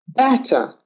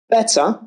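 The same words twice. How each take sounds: First: Better with a flat wide a, like "batter"; ae vowel. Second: Better with a clear short e, like "bet". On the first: Teacher modelling the ae vowel, open flat a. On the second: Teacher modelling the e vowel, clear short e. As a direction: say "Better" with an open eh sound. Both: Shown as a demonstration. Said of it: "Fend, fanned".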